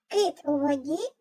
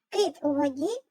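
No difference in how they are said.

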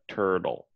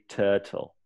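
First: It is said with an American accent. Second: It is said with a British accent.

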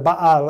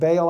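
First: The name is said with a Hebrew pronunciation. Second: The name is said with an English pronunciation. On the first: "Baal is how you would say it in Hebrew" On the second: "English pronounces it Baal"

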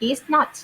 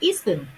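First: It is said as two separate full words. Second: It is said as one contracted word.

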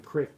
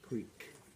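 First: The vowel is a short 'i' sound. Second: The vowel is a long 'ee' sound.

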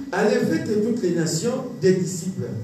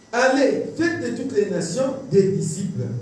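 No difference in how they are said.

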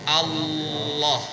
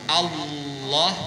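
Both takes have the same delivery.

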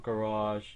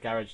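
First: The word is pronounced the American way. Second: The word is pronounced the British way. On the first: "not garage" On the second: "I'm English, so I said garage"

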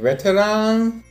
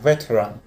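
First: The final syllable has a full open 'a' vowel. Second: The final syllable has a reduced schwa vowel. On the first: The speaker calls it wrong. "Не «veteran»" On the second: The speaker calls it right. "будет давать звук «шва»"

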